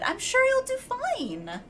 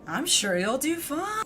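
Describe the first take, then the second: First: It is said in a peppy, sincere tone. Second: It is said in a mocking, sarcastic tone.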